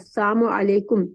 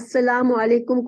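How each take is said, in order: First: The first word is twisted to sound like 'assam'. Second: The first word is said fully as 'assalam'. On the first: Death be upon you. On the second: Peace be upon you.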